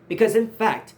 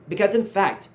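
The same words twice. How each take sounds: The two takes are said the same way.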